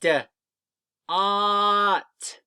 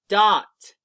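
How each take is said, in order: First: Short "D", pause, long loud "Ought"; sounding out. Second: "Dot" short and loud in one piece; blended word. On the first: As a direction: stretch "Ought" on a higher level note. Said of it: "put words and letter sounds together". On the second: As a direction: join the sounds into a quick "Dot". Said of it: "you come out with a word". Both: Shown as a demonstration.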